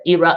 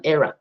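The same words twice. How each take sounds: First: "era" with a long ee first vowel, EE-ra; pronunciation example. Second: "era" with an open eh first vowel, EH-ra; alternative pronunciation. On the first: Teacher contrasting two kinds of English, "era" as EE-ra. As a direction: say "era" starting like "ear", EE-rah. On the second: Teacher contrasting two kinds of English, "era" as EH-ra. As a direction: say "era" starting like "air", EH-rah. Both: Shown as a demonstration. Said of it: "depends on which English you're speaking".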